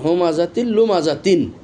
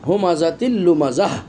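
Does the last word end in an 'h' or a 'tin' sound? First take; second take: tin; h. First: The last word ends with a full 'tin' sound. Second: The last word ends with a soft 'h' sound. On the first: The reader goes on without stopping. "লুমাজাতিন এটা দুই জের আছে" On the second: The reader stops at this word. "যদি আমি এখানে থেমে যাই তাহলে গোলতাটাকে হা হিসেবে পড়তে হবে"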